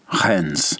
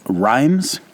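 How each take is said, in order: First: It is said the French way, ending nasal. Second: It is said the English way, rhyming with times. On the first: The speaker calls it right. "you say more of an N like November in the pronunciation" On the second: The speaker calls it wrong. "you might see Rennes as Reims or Rhymes"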